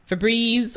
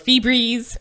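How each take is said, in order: First: Febreze is said with its usual pronunciation. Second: Febreze is said with an unusual, altered pronunciation. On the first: The speaker calls it right. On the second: The speaker calls it wrong.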